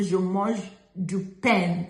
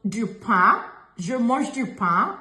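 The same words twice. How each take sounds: First: "pain" slowly said as "pen" with a sounded N; mispronounced "pain", N voiced; wrong pronounced N. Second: "pain" ending open and nasal, no N; nasal French vowel in "pain"; correct nasal pain. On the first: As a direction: drag out "je mange du pain", closing "pain" on a hard N. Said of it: "We don't say". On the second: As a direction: demonstrate "pain" with the N silent, lifting at the end. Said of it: "is what we say". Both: Shown as a demonstration.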